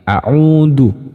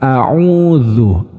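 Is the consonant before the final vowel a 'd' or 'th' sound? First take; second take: d; th. First: The consonant is a stopped 'd' sound. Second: The consonant is a flowing 'th' sound. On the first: The speaker calls it wrong. "ini biasanya tertukar dengan huruf dzal yang tanpa titik ... Itu kurang tepat" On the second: The speaker calls it right. "Sebaiknya seperti apa?"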